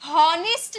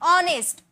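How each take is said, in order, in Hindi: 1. इस शब्द की शुरुआत h साउंड से होती है। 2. इस शब्द की शुरुआत वॉवल साउंड से होती है। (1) "हॉनेस्ट नहीं बोलते हैं" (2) "ओ का साउंड आ रहा"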